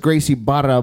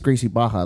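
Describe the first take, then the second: First: The double r is said as an R sound. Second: The double r is said as an H sound. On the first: "But it has an R in it" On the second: "It's an H sound"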